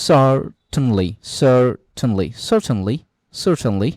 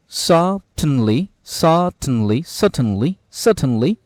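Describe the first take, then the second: First: Certainly said sərtənli with the r; American certainly. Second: Certainly said sətənli, no r; British certainly. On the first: Teacher modelling the American certainly for students. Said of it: "US বললে আপনার এটার উচ্চারণ হবে". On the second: Teacher modelling the British certainly for students. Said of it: "দুইটা উচ্চারণ British American". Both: Shown as a demonstration.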